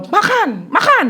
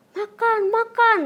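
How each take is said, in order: First: Loud, high-pitched imitation of a caregiver; raised-voice command. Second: Firm but restrained nudge, pitched up; slightly raised voice. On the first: Imitating the caregiver ordering the child to eat, loud raised voice. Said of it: "suaranya dikencengin dikit ya". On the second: Retold or imitated. Child retells caregiver telling them to eat, slightly raised voice. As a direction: imitate a caregiver urging food, only a little forceful. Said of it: "cuma dikencengin dikit".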